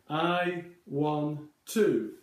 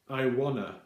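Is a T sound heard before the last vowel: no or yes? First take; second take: yes; no. First: The two T sounds merge into one T. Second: The T sounds drop out, giving wanna. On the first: This is the everyday British way. "that sounds uh, very fluent and very native in British English" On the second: This is the everyday American way. "in everyday American English, um, they use quite a different way of saying it"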